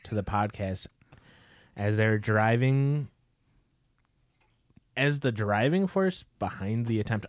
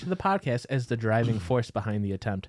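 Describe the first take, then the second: First: A long pause comes before 'as the driving force'. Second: The phrase runs on with no pause before 'as'. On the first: The speaker calls it wrong. "I put a real pause there" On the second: The speaker calls it right. "I didn't goof it up that time"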